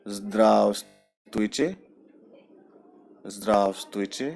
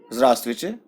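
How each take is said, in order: First: Zdravstvuйте drawn out very slowly, syllable by syllable; slow teaching demo of zdravstvuйте. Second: Zdravstvuйте run together as zrastvuyte at natural speed; quick natural zdravstvuйте; said fast. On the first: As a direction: stretch out zdravstvuйте for learners. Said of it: "पहले धीरे से बोलते हैं". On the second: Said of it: "fast बोलेंगे". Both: Shown as a demonstration.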